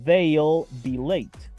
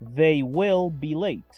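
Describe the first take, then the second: First: They and will merge into one short syllable. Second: They and will are two separate full words.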